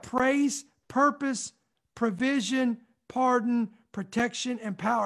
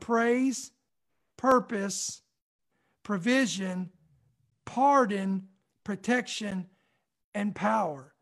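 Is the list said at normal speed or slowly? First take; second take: normal; slowly. First: The list is said at normal speed. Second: The list is said slowly.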